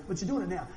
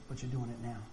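First: Said in the usual way. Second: "But you're doing it now" said softly, low in pitch, with "doing" leaned on gently; a calm, quiet reassurance; God's gentle reply. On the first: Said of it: "that's the grace of God right there". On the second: Retold or imitated. Preacher voicing God reassuring him, soft and low. God answers his regret.

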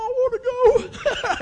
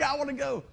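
First: Eager excitement. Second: Said in the usual way. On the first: Retold or imitated. Recalls eagerly agreeing to go.

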